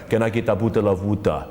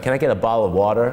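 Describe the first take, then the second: First: It is spoken in an African accent. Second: It is spoken in an American accent. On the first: "and Africa" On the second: "You go to America"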